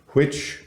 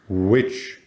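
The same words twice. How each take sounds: First: The first consonant is a breathy, unvoiced sound. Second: The first consonant is a voiced sound. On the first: "Which is unvoiced" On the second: "which is voiced"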